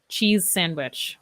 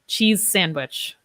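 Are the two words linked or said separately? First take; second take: linked; linked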